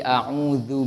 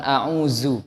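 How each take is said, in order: First: The middle consonant is a soft dh sound. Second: The middle consonant is a plain z sound. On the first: The speaker calls it right. "tapi a'udzu billah. Pakai za" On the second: The speaker calls it wrong. "bukan a'udzu"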